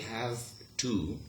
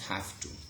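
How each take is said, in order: First: The v of 'have' stays a voiced v. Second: The v of 'have' becomes a voiceless f. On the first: "in careful speech you could say" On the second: "in rapid speech"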